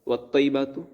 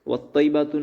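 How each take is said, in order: The two takes are said the same way.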